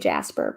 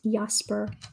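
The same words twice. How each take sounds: First: The name begins with an English J sound. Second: The name begins with a Y-like sound. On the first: This is how it is said in the US. "In the U S, you say Jasper" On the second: This is how it is said in the Netherlands. "in Nederlands, dat is Jasper"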